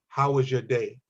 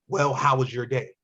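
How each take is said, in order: First: It is said in a plain, neutral tone. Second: It is said in an angry, hostile tone.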